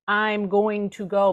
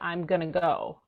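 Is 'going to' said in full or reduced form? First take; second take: full; reduced. First: The words 'going to' are said in full. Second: The words 'going to' are reduced to 'gonna'. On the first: "someone else is saying" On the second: "but they'll say"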